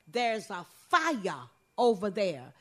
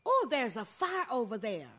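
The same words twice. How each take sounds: First: "There's a fire over there." slow, drawn out Gullah style, falling at the end; Gullah pronunciation. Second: Said in the usual way. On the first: Shown as a demonstration. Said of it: "In Gullah, we say". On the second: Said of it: "where you would say".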